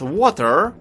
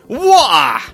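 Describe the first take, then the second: First: It is said with an American accent. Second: It is said with a Cockney accent.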